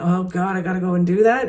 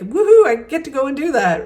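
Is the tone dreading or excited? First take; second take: dreading; excited. First: It sounds dreading and negative. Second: It sounds excited and positive.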